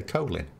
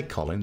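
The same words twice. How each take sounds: First: Colin with a long o, like coal; American Colin. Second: Colin with a short o, like collar; British Colin. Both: Shown as a demonstration. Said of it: "that's how Americans say".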